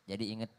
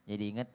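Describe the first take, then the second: Both takes have the same delivery.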